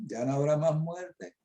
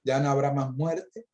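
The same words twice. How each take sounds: First: "ya no habrá más muerte" slowed, leaning on "más"; slow emphatic. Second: Said in the usual way. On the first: Shown as a demonstration. After "Oiga bien" preacher repeats for the listeners, slow stress on "más". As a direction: drag out "más muerte" so it sinks in. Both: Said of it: "Oiga bien".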